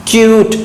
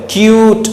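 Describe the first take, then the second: No difference in how they are said.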